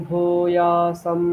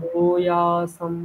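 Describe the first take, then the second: The two takes are said the same way.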